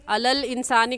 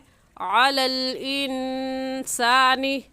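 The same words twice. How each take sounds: First: It begins with a plain vowel, no throat sound. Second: It begins with a sound pressed from the throat. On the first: The speaker calls it wrong. "कहना गलत है" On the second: The speaker calls it right. "आइन हलक के दरमियानी हिस्से से निकलता है"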